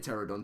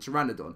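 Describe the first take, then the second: First: The word is said with three syllables. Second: The word is said with four syllables. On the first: The speaker calls it wrong. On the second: The speaker calls it right.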